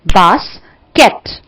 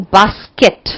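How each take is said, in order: First: basket in two slow, separate beats; split into syllables. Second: Said in the usual way. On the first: Shown as a demonstration. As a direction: break basket as बास, pause, केट. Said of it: "तो दो syllable". (Basket को दो हिस्सों में तोड़कर) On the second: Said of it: "अगर मैं मान लो बोलूं बास्केट".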